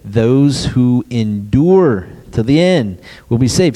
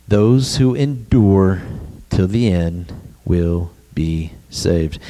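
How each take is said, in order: First: Said in the usual way. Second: Slow solemn quote. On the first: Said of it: "What did Jesus say". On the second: Shown as a demonstration. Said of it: "Jesus said one thing".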